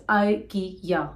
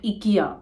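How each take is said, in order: First: "ikea" said eye-KEE-yah, slow and clear; the right "ikea" starting with eye; correct pronunciation. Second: "ikea" said ee-KEE-ah, the wrong way; the mistaken "ikea" with an ee sound; wrong pronunciation. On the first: Correcting viewers on the brand name. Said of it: "it is ikea". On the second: Showing viewers the common wrong version. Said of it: "It is not ikea". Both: Shown as a demonstration.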